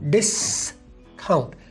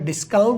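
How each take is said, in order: First: The stress falls on the 's' syllable. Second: The stress is not on the 's' syllable. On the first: The speaker calls it right. "एस पर stress है" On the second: The speaker calls it wrong. "Discount नहीं होता"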